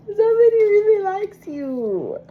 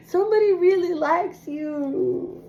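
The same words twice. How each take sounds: First: More emotional. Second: Emotional. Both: Real, not acted. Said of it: "I feel so emotional".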